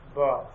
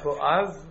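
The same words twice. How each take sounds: First: The stress is on the first syllable. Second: The stress is on the second syllable. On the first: The speaker calls it right. "Put an emphasis on the base" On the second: The speaker calls it wrong. "not Boaz"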